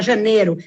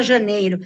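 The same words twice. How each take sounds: First: Janeiro with the i dropped, like janero; clipped janeiro. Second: Janeiro with the ei diphthong, jan-EI-ro; full janeiro. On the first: Teacher showing how people swallow the i in janeiro, casually. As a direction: drop the diphthong: janeiro as ja-ne-ro. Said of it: "fala janeiro". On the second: Teacher showing the careful janeiro in a diction lesson, precisely. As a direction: keep the i: janeiro as ja-nei-ro. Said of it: "Não fala janeiro". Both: Shown as a demonstration.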